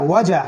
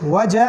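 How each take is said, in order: Both takes have the same delivery.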